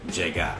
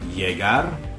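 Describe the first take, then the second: First: The double l sounds like an English j. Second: The double l sounds like an English y. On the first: "or the English J" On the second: "either the English Y"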